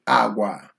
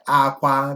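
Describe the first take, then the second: First: The word is said on low tones. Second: The word is said on high tones. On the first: It means character or beans. "simple words that have low tones" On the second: It means to cry. "the high tone akwa is cry"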